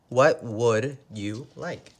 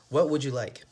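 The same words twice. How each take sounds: First: It is slow, with 'would you' said separately. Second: It is fast, with 'would you' blended together. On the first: "If we say it slow, we say" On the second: "If we say it fast"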